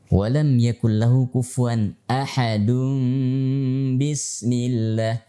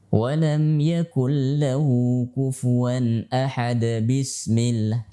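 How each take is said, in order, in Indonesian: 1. Kata itu berakhir dengan -un, tersambung ke bismillah. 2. Kata itu berakhir tiba-tiba, tidak tersambung ke bismillah. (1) "Hukum tajwidnya kita gunakan" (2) "Jadi bukan ... Ini keliru"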